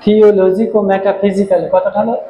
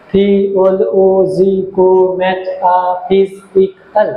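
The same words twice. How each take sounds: First: Said in the usual way. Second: থিওলজিকো metaphysical drawn out very slowly, each syllable apart. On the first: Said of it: "এক, দুই". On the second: Shown as a demonstration. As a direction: spell out থিওলজিকো metaphysical slowly so students can count syllables. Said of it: "এক, দুই, তিন". (ধীরে ধীরে প্রতিটি syllable আলাদা করে)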